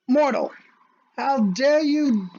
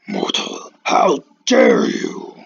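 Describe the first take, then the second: First: The speaker's ordinary everyday voice. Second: A put-on, very deep, booming voice. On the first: "I'll just do it in my normal" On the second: "try to do Kudama, uh, Kudama or Kurama's voice, because that's as deep as my voice will go"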